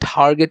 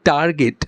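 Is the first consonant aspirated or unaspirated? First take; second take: aspirated; unaspirated. First: The first consonant is said with strong aspiration. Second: The first consonant is said without aspiration. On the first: This is the foreign native way of saying it. "ওরা বলবে টার্গেট" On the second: This is the local way of saying it. "আমরা যদি বলি টার্গেট"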